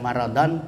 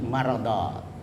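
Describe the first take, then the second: First: The word ends with an n sound. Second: The word ends with a long a vowel. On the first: The speaker calls it wrong. "bukan maradan" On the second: The speaker calls it right. "tapi marada. Kalau dia berhenti"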